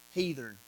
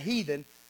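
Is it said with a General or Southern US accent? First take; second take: Southern; General. First: It is said Southern-style, with an R before the N. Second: It is said without an R before the N.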